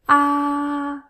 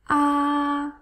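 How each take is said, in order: The two takes are said the same way.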